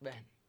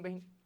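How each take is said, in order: First: The middle vowel is pronounced lightly and reduced. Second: The middle vowel is pronounced fully and heavily. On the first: The speaker calls it right. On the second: The speaker calls it wrong.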